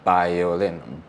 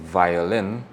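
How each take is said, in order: First: The word begins with a b sound. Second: The word begins with a v sound. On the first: "because the V and the B is the same sound" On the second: "instead of saying violin"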